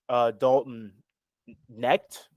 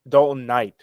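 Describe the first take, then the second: First: The surname is not said like 'knight'. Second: The surname is said like 'knight'. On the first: The speaker calls it wrong. "I think that's how you pronounce his name" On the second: The speaker calls it right. "you pronounce it Knight"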